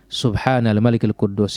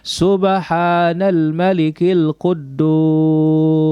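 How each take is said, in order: First: It is said a little louder than before. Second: It is said loud, with drawn-out words.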